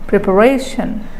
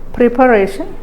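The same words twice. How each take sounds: First: The stress is on the second-last syllable. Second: The stress is on the third-last syllable. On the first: The speaker calls it right. "if you put stress on the penultimate syllable" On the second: The speaker calls it wrong. "If you give stress on the third syllable or anti-penultimate syllable"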